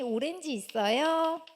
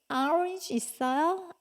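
First: Orange is pronounced with Korean sounds, o-ren-ji. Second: Orange is pronounced with native English sounds. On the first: It is the Korean loanword, used in Korea. The speaker calls it right. "외래어로 우리가 똑같은 오렌지를 우리 뭐라 그래?" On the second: It is the foreign word, used abroad. The speaker calls it wrong. "이러면은 아저씨가 못 알아들으실 거예요"

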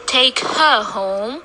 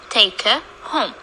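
First: The word 'her' is full, with a clear 'h' sound. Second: The word 'her' is reduced, with no 'h' sound. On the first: The speaker calls it wrong. "We don't say take her home" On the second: The speaker calls it right. "We say take her home"

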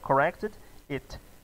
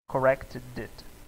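First: The two words are said separately. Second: The d sound links straight into it. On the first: The speaker calls it wrong. "Ao invés de você querer falar as palavras separadas" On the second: The speaker calls it right. "a gente não separa o som"

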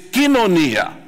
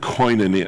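First: It is said with a Greek pronunciation. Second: It is said with an Anglo English pronunciation. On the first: The speaker calls it right. "forget this koinonia business. It's kinonia" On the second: The speaker calls it wrong. "Anglos say koinonia when they read it"

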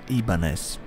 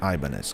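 First: The name is pronounced in a Japanese style. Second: The name is pronounced in an English style. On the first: The speaker calls it right. "It should be pronounced Ibanez" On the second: The speaker calls it wrong. "not Ibanez, because it's not British name"

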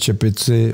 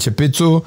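First: It is said in standard Czech. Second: It is said in the Brno dialect.

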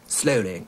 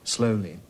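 First: The final vowel is more open and lax. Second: The final vowel is close, like in beat. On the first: This is the older public school style. "in the earlier one, they're saying things like" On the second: This is the newer public school style. "the newer trend is to make it closer, more like the E of beat"

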